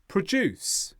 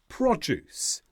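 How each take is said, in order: First: The stress is on the second syllable. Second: The stress is on the first syllable. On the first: It is used as a verb. "When they become verbs, though, produce becomes produce" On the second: It is used as a noun. "When they are noun forms, they tend to be stressed on the first syllable"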